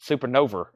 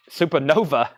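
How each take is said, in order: First: Tennessee accent, "Supernova" ending in -er; Southern r on the end of "Supernova". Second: Said in the usual way. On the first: Real, not acted. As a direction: softly slip into Tennessee "supernover". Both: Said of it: "my Tennessee accent just came out".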